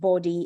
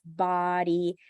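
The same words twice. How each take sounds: First: The first vowel sounds like 'or'. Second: The first vowel sounds like 'ah'. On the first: The speaker calls it wrong. "It's not body" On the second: The speaker calls it right. "it's body"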